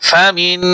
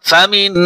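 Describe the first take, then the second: No difference in how they are said.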